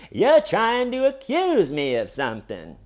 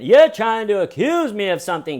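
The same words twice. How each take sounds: First: High, loud mock outrage; movie-style indignant suspect. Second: High, loud indignant suspect; once confident tone. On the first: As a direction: play the wronged innocent, hammed up. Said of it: "he's doing the movie". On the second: Retold or imitated. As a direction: blurt it like a cocky wronged man. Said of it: "tone of voice is taking a turn".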